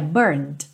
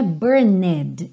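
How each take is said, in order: First: The word ends abruptly on a D sound. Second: The ending is said as an extra syllable. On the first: The speaker calls it right. "parando no D" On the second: The speaker calls it wrong. "não é burned, embora tenha essa letra E"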